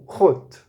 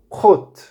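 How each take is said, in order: First: "rot" repeated as a model, with a throaty R; repeating rot. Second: "rot" said as a model, with a throaty R; pronouncing rot. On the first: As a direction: repeat "rot" for them to copy. (repetição de "rot") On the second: (pronúncia modelo de "rot") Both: Shown as a demonstration.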